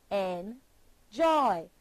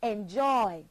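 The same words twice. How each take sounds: First: "Enjoy" broken in two with a clear pause, en, joy; split into syllables. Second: Said in the usual way. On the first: Shown as a demonstration. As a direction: say "Enjoy" slowly, one syllable at a time. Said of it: "Two syllables". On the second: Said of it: "Put your hand beneath your chin and say".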